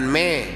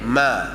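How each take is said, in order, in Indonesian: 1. Vokalnya terdengar seperti 'eh'. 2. Vokalnya terdengar seperti 'ah'. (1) "bukan me"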